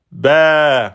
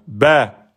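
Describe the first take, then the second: First: "ba" held over two beats; long vowel. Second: "ba" on one short beat; short "ba", not prolonged; short vowel. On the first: Teacher timing pen up and down, long "ba". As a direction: stretch "ba", falling at the end. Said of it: "je monte, je redescends". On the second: Teacher timing one beat, short "ba". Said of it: "un temps". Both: Shown as a demonstration.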